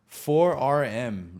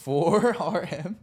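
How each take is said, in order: First: Said in the usual way. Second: "Four R M" high, loud and drawn out; emphatic repeat. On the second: Retold or imitated. Retelling his brother's gift label, "Four R M" loud and stretched. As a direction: stretch "Four R M" slowly with a big rise in pitch and volume.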